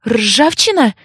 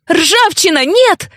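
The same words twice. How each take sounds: First: Tentative, questioning call of a name; hesitant, not raised to a shout; uncertain call. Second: High-pitched cry to stop; narrated yell, pitch leaping up; alarmed yell. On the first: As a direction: call out carefully, unsure who answers. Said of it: "неуверенно произнесла я". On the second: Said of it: "заорала я". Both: A narrator's reading.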